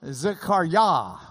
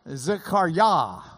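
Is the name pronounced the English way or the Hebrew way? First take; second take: Hebrew; Hebrew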